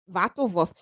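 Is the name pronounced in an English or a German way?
German. The name is pronounced the German way. "If it was German, it would be Wattleworth"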